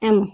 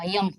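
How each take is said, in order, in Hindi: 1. यह शब्द सीधे एक स्वर से शुरू होता है। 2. यह शब्द 'y' ध्वनि से शुरू होता है। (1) "इसको क्या पढ़ते हैं? एम।" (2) "इसको यम पढ़ा होगा, यम। इसको यम नहीं पढ़ते हैं।"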